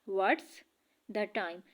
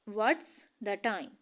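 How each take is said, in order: Both takes have the same delivery.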